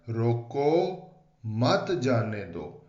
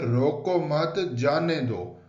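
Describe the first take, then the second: First: The pause comes after the first word. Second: The pause comes after the second word.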